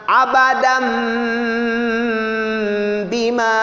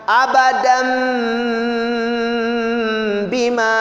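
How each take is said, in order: The two takes are said the same way.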